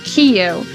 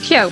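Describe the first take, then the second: First: The name starts with a separate 'key' sound. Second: The name starts with a single 'kyo' sound. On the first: The speaker calls it wrong. "Our parents used to to call him" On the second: The speaker calls it right. "no, it's just Kyo. There's no key"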